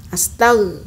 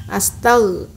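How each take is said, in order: No difference in how they are said.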